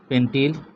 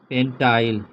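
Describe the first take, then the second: First: The second syllable has a short 'i' vowel. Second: The second syllable has a long 'ai' vowel. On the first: "पेंटिल कहते हैं या पेंटाइल कहते हैं" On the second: "पेंटिल कहते हैं या पेंटाइल कहते हैं"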